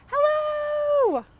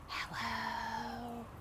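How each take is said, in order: First: It is said very loudly. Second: It is said very quietly.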